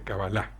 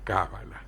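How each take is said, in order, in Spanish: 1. La tónica está en la última sílaba. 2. La tónica está en la primera sílaba.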